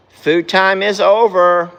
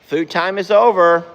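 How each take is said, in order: First: Drawn-out, louder call; slow firm call. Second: Calling out. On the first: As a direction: stretch it out and insist. Repeated call, slower and louder. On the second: Repeated call to horses. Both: Real, not acted.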